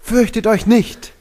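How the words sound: It sounds natural and full of emotion.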